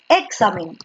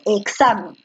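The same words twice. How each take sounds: First: The stress is not on the middle syllable. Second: The stress is on the middle syllable. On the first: The speaker calls it wrong. "Porque tú no dices examen" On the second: The speaker calls it right. "Tú dices examen. ... la fuerza de voz está en sa"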